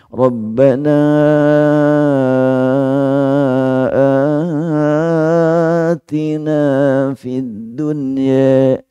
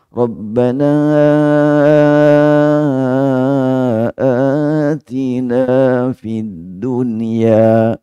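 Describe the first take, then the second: No difference in how they are said.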